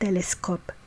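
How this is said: It is said with Hebrew pronunciation. "we say telescope"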